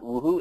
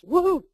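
First: It is said flatly, without much emphasis. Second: It is said with lively, lifted energy.

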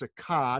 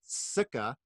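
First: The stress falls on the second syllable. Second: The stress falls on the first syllable. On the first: The speaker calls it right. "the emphasis is on the second syllable, thus the line over the A, so it's Sukha" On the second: The speaker calls it wrong. "not Sukha"

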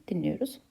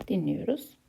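Both takes have the same delivery.

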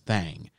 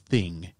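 First: The word has a drawled southern vowel. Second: The word has a plain, short vowel. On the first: The speaker calls it right. "you got to pronounce it with a southern drawl" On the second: The speaker calls it wrong. "it's not the thing"

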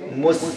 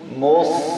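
First: The s is light, with an empty mouth. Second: The s is heavy, with a full mouth. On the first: The speaker calls it wrong. "Don't say mus" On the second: The speaker calls it right. "but sad full mouth sound"

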